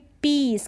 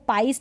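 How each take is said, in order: First: The vowel sounds like 'ee'. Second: The vowel sounds like 'eye'. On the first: The speaker calls it right. "क्या पढ़ेंगे? पीस" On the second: The speaker calls it wrong. "इसको पाइस नहीं पढ़ेंगे"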